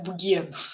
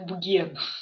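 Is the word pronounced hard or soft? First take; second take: hard; hard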